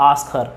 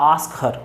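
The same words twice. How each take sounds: The two takes are said the same way.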